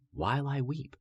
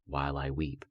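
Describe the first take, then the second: First: Anguished cry. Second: Said in the usual way. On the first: Acted. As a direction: cry the words out in grief. Repeated line, voice climbs.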